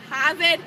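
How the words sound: The R sounds are dropped. "we say"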